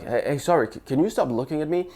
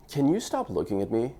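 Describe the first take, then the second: First: Hesitant and apologetic, stumbling on the start; shy nervous. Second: Cool, deadpan cocky tease. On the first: Guy at a bar losing his nerve, shy and nervous. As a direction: lose your nerve halfway through the line. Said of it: "in a shy, nervous voice". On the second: Guy teasing a girl at a bar, cocky. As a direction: tease her like you own the room. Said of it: "number six is the cocky one". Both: Shown as a demonstration.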